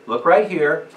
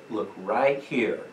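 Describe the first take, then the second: First: Loud command voice. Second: Slow firm command. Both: Shown as a demonstration. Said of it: "Use a command voice".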